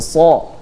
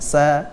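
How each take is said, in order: First: The syllable is pronounced heavy, with a dark vowel. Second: The syllable is pronounced thin, with a light vowel. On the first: The speaker calls it right. "memiliki sifat tafkhim, tebal" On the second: The speaker calls it wrong.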